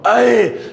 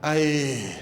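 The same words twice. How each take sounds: First: It is said with excited energy. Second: It is said flatly, without enthusiasm.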